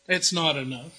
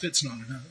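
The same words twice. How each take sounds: First: Said in the usual way. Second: Softer, lower mutter to himself; a quiet rueful admission; quiet aside. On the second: Acted. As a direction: drop it under your breath, wry. Self-deprecating aside, repeated.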